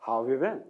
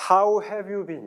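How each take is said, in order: First: "How have you been?" run together, "have" reduced to a quick v; linked reading. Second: "How have you been?" with every word fully and separately pronounced; word-by-word reading. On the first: Teacher showing how natives say "How have you been?", linked up. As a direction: glue "How have you been?" into one lower, casual phrase. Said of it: "붙여서". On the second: Teacher showing how not to read "How have you been?", word by word. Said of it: "이렇게 또박또박 안 읽어줍니다". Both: Shown as a demonstration.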